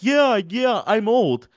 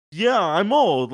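First: Mock agreeing. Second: Put-on higher, louder, very slow yeah, I'm old; slow, irritated admission. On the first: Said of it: "And Volk was like". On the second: Volk tired of being called old, slow and annoyed. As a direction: drag out "Yeah, I'm old." as if the teasing is wearing on him. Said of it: "like, slowly, like, it getting to him".

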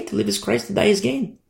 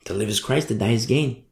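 First: To live is Christ said higher and lighter; a light, carefree take on the verse; lifted, untroubled reply. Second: To live is Christ said low and soft; softly, as a firm truth; quiet, settled conviction. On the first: Retold or imitated. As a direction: toss it off easily, up high. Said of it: "it's like, okay". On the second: Shown as a demonstration. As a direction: lower the voice and mean it. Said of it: "That mindset only comes from Jesus Christ".

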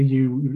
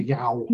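First: Said in the usual way. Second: "yow" said to rhyme with "cow"; regional dialect pronunciation. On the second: Shown as a demonstration. Author showing how "you" sounds up there, "yow" in dialect. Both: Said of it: "a U is a yow".

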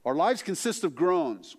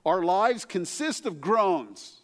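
First: "Our lives consist of groans" again, stress on "lives", falling at the end; steady, raised restatement of "lives"; repeated emphatic quote. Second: Slow, weighty reading of "Our lives consist of groans", stress on "lives"; raised, deliberate quotation of "lives"; slow emphatic quote. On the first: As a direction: lean on "lives" once more. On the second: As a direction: lean hard on "lives", then let it fall. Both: Retold or imitated. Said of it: "He wrote this about groaning".

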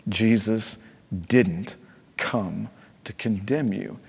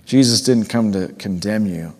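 First: Each word set apart by pauses, condemn landing soft and slow; Jesus, pause, didn't, pause, come to condemn you, spaced and slow; slow word-by-word emphasis. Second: Said in the usual way. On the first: Shown as a demonstration. Pastor slowly spelling out grace to a wandering listener, word by word. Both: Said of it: "Listen to me".

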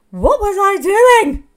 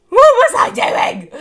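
First: Loud, high, slow cry of disbelief; loud self-reproach, drawn out; exasperated outburst. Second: Even higher, loud and slow; louder exasperated outburst. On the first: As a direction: belt out the question at yourself, slowly. Exasperated at her own choices. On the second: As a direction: push the disbelief further than the first cry. Repeats the outburst, even stronger. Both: Real, not acted.

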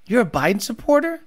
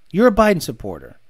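First: Supporter? rising at the end as a question; a mock-incredulous question; questioning tune. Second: Supporter. falling, said lower as a verdict; a dry, certain conclusion; flat statement. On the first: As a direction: ask "You're a Biden supporter?" with the pitch going up on supporter. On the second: Acted. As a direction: state "You're a Biden supporter." with a dropping tune. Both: Same words, question then statement.

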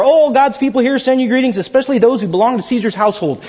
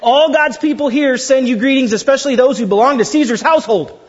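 First: Said in the usual way. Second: Astonished, half-laughing reading of the greeting; amazed reading. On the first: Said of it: "we're gonna try that one more time". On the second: Shown as a demonstration. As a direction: read it with a laughing gasp of amazement. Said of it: "You guys gotta suck wind".

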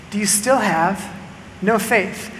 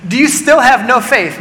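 First: Softer, a quiet question; soft rebuke. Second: Louder and higher, with STILL leaned on; pointed rebuke. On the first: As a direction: ask it gently, almost under the breath. Jesus questions his disciples. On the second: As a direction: press the question on "still". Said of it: "Jesus looks at them and says". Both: Acted.

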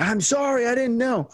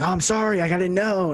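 First: Much higher, mock-sweet sarcastic sorry; high, put-on condescending sorry; condescending apology. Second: Retold apology, pitched higher; earnest retold sorry; sincere apology. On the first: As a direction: apologize while talking down to him. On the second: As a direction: say sorry like you mean it, a bit higher. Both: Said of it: "that's a little condescending attitude".

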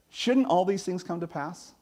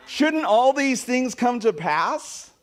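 First: Said in the usual way. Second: Slow, high, drawn out, "shouldn't" stretched and rising; slow rising question with "shouldn't" stretched. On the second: Shown as a demonstration. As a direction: stretch "shouldn't all these things come to pass" into a long rising plea.

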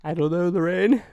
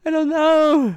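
First: A lightly acted dramatic character line, a bit higher and louder; mock TV character. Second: High, loud hammed-up wail of despair; mock despair cry. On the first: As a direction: play a panicked sitcom husband, half-hearted. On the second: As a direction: throw the line up in a hammy squeal. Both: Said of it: "I don't know why I just said that".

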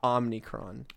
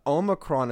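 First: "Omnicron" with open first vowel and an added N; Omni-style Omnicron. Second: "Omicron" with long OH and no N after the M. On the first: Rejecting the wrong name, "Omnicron" with added N. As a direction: say "Omnicron" slowly as OM-nee-cron. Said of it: "not Omnicron". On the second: Telling co-host the correct name, "Omicron" with long O. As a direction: say "Omicron" as OH-muh-cron. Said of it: "Omicron is correct". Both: Shown as a demonstration.

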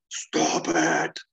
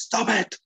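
First: Deep, drawn-out monster roar; screaming, deep voice. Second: High-pitched, agitated outburst. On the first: Banner turning green under McGee's goading, deep scream. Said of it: "screaming, deep voice, eyes already green". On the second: Banner told it was him, agitated outburst. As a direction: burst out to silence him, voice leaping. Banner cuts off McGee's accusation. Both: Acted.

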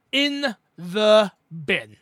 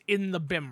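First: "In the bin" very slow, each word separate and louder; emphatic repeat. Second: Said in the usual way. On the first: Real, not acted. Host complaining about his internet, "In the bin" slowly hammered home.

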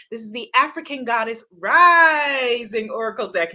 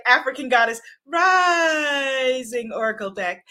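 First: Dramatic, announcer-style title read; grand announcement. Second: Shouted title. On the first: Host unveiling her new oracle deck to viewers, grand announcer read. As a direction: proclaim the deck name like a big reveal. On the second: Host teaching viewers to shout the deck name, booming announcer call. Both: Shown as a demonstration. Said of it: "you have to say it like that".

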